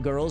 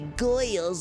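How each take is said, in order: First: It is said in the speaker's ordinary accent. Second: It is said in a put-on accent, like 'goyles'. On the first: "instead of saying girls" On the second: "they say goyles"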